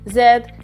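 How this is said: The letter is said the British English way. "Z is in the British English"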